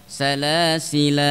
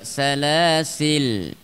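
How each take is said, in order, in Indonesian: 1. Kata ini berakhir dengan vokal 'a'. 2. Kata ini berakhir dengan bunyi 'l' tertutup. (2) "yang kedua salasil ya, boleh seperti itu"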